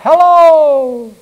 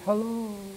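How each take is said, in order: First: It is yelled loudly. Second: It is said softly, like a fading echo.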